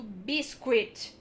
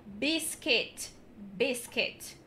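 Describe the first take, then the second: First: "biscuit" said as "biskwit", slow; the mistake, "biskwit" with the u sounded; wrong pronunciation. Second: "biscuit" said as "bisket", u silent; correct pronunciation. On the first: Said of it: "mas tá errado". ("biscuit" errado, com som de U) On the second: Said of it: "O correto é biscuit". ("biscuit" certo, como "bisket") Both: Shown as a demonstration.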